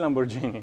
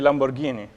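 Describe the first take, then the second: First: The middle g is a soft j sound. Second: The middle g is a hard g sound. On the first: The speaker calls it wrong. "Please don't say Lamborghini, like it's terrible" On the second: The speaker calls it right. "What does the H do there? It makes the G hard"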